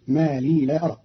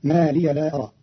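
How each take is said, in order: First: لي said as long "lee", not "liya"; ما لي as "ma lee", no final a; vowelless ya. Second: Said in the usual way. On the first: Shown as a demonstration. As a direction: end لي on a long ee. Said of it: "بإسكان الياء". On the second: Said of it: "قرأ قالون كلمة ما لي".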